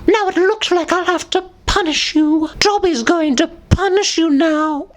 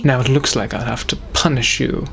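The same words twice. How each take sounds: First: Squeaky high elf voice, much higher; high squeaky Dobby threat. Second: British gentleman. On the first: Dobby threatening punishment, squeaky high. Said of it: "saying these as Dobby". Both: Acted.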